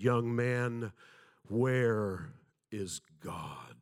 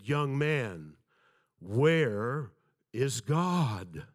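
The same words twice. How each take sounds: First: A slow, booming pastor's voice, drawn out; deep resonant voice. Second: Louder and heavier pastor's voice, each word weighed; deeper voice. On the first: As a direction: loom over the boy like an imposing pastor. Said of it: "in a very deep, resonant voice". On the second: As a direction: repeat it with more weight to scare the boy. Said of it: "once again in a deeper voice said". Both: Retold or imitated.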